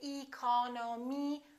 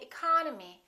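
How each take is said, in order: First: The unstressed vowels are said as full vowels. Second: The unstressed vowels are reduced to a weak uh. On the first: The speaker calls it wrong. "We don't say economy" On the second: The speaker calls it right. "this E and this O are reduced"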